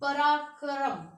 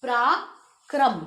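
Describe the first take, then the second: First: पराक्रम said slowly, vowels pulled apart as परा-क-रम; पराक्रम stretched, as a mistake not to copy; wrong pronunciation. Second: पराक्रम slow and clear with a tight प्रा cluster; slow model reading of पराक्रम; correct pronunciation. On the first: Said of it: "तो ये गलत है". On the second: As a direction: say पराक्रम deliberately, cluster joined. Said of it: "इसे हमने बोलना भी है". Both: Shown as a demonstration.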